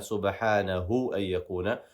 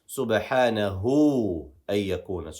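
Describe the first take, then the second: First: The final vowel of subhanahu is short. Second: The final vowel of subhanahu is lengthened. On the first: The speaker calls it wrong. "we're not going to just say" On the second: The speaker calls it right. "We're going to extend with this waw"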